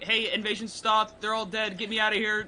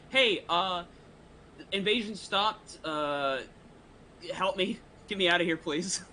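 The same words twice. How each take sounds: First: Mock prayer. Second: Silent prayer. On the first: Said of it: "I could be like". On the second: Acted. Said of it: "I'll try to pray in my mind".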